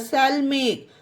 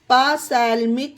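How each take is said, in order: First: The word begins with an S sound. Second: The word begins with a sounded P. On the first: The speaker calls it right. "पी silent है" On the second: The speaker calls it wrong. "इसे पासैल्मिक नहीं पढ़ना guys, ये गलत हो जाएगा"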